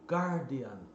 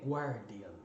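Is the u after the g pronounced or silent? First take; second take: silent; pronounced. First: The u after the g is silent. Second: The u after the g is pronounced. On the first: The speaker calls it right. "é Guardian" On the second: The speaker calls it wrong. "Não é The Guardian"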